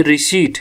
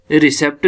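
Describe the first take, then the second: First: रिसीट said "ri-SEET", p silent; correct pronunciation. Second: रिसेप्ट said "ri-SEPT", p sounded; rejected misreading. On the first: Teacher showing what to say instead, correct "ri-SEET". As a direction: say रिसीट with long "ee" before t. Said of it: "ये रिसीट है". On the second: Teacher showing what not to say, misread "ri-SEPT". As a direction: say रिसेप्ट with short e and "pt". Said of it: "रिसेप्ट नहीं है". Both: Shown as a demonstration.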